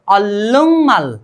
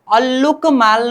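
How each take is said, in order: First: The first part ends in a nasal ng sound. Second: The first part ends in a hard k sound. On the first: The speaker calls it right. "ग का उच्चारण चेंज करके ng करेंगे" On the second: The speaker calls it wrong. "अब इसको उच्चारण अल्लुक माल नहीं करना है"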